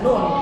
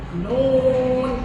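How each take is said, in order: First: The vowel is kept short. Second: The vowel is drawn out long. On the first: The speaker calls it wrong. "jangan dibaca nun" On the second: The speaker calls it right. "karena di situ ada mad"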